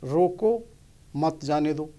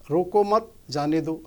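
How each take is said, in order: First: रोको said alone with a rise, then a pause, then मत जाने दो together; pause after रोको. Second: रोको मत stressed on रोको and said together, then a pause before जाने दो; pause after मत. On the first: Showing listeners how an edit changes meaning: pause after रोको. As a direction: break the line after रोको, then run मत जाने दो as one phrase. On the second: Showing listeners the other reading: रोको मत joined, pause, then जाने दो. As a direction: keep रोको मत as one phrase, break, then जाने दो. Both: Shown as a demonstration. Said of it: "इसको हम जैसे कहते हैं".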